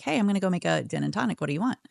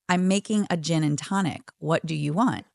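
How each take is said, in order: First: Quick, breezy retold offer; lightly voiced friend offering a drink; casual offer. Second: "making a gin and tonic" spelled out deliberately; measured, pointed stress on "What do you want"; insistent repeat. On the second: Retold or imitated. Friend repeats offer after being declined.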